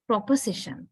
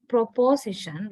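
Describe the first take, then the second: First: Proposition with a schwa in the second syllable; reduced O. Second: Proposition with a full, weighty O in the second syllable; wrong full O. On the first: Teacher gives the correct form, proposition with schwa. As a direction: say proposition with a quick weak uh after prop. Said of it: "So O changes to a". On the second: Teacher shows the form to avoid, proposition with full O. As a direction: say proposition as pro-POSE-ition, O unreduced. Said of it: "not proposition". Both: Shown as a demonstration.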